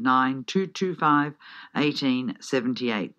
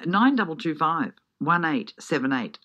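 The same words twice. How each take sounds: First: Slow, deliberate phone number; slower repeat. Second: Said in the usual way. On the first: Real, not acted. Radio host repeats ticket number for listeners, slowly. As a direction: read the number out slowly for note-taking. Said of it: "If I said it too fast, I'll say it again". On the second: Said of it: "If I said it too fast".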